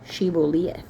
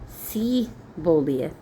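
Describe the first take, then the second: First: The word begins with a sh sound. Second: The word begins with a plain s sound. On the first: The speaker calls it right. "S H I B B O L E T H" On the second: The speaker calls it wrong. "like didn't pronounce the H"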